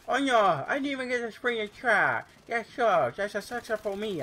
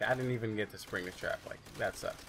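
First: Much higher and louder, hammed-up despair; high mock-dramatic redo. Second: Said in the usual way. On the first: Shown as a demonstration. Gamer redoing his line in a shrill theatrical wail. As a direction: overact the disappointment in a high squeal. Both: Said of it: "Oh, wait, sorry".

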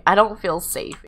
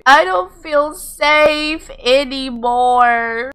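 First: Said in the usual way. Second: High, slow, drawn-out complaint; dramatic unease. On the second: Pretend. Player watching odd visitor approach, hammed-up unease. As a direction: stretch it out high, playing up the worry.

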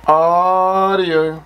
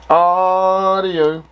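Both takes have the same delivery.

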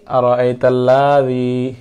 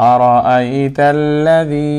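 First: আরাআইতাল্লাযী with "laa" dragged long; wrongly lengthened la. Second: আরাআইতাল্লাযী with quick "la", drawn-out "dhee"; short la, long zi. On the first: Teacher showing a common mistake, over-long লা in আরাআইতাল্লাযী. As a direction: stretch the লা in আরাআইতাল্লাযী. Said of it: "আমি যে টানলাম, এটা আমার ভুল হয়েছে". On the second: Teacher correcting the mistake, আরাআইতাল্লাযী with short লা, long যী. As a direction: keep লা brief and stretch যী in আরাআইতাল্লাযী. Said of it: "হরকত টানা যাবে না". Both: Shown as a demonstration.

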